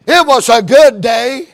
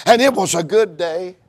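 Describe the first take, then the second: First: Louder, rising preached repeat; emphatic proclamation. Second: Said in the usual way. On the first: Shown as a demonstration. Preacher repeating scripture to the congregation, louder and rising. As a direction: echo the line as a ringing proclamation.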